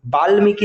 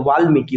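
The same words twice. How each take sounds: First: वाल्मीकि said with B for V, "baalmiki"; wrong B sound. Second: वाल्मीकि said with a V, "vaalmiki"; correct V sound. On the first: Teacher rejecting the mistaken form, wrong B in वाल्मीकि. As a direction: start वाल्मीकि on a hard B, higher pitch. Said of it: "वाल्मीकि नहीं होता है". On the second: Teacher giving the correct form, V in वाल्मीकि. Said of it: "वाल्मीकि होता है". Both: Shown as a demonstration.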